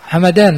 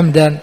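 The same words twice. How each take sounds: First: The m is followed by a short a vowel. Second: The m has no vowel after it. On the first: "بفتح الميم" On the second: "بسكون الميم"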